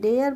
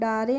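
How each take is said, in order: First: The vowel sounds like 'air', one syllable. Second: The vowel sounds like 'ah-ray', two syllables. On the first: The speaker calls it right. "डेयर पढ़ेंगे इसको" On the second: The speaker calls it wrong. "डारे नहीं पढ़े"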